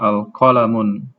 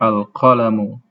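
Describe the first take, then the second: First: The word ends with an n sound. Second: The word ends in a vowel, no n. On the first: The speaker calls it wrong. "Jadi bukan al-qalamun" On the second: The speaker calls it right. "tapi al-qalamu"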